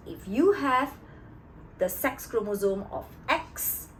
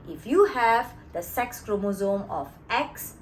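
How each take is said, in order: Both takes have the same delivery.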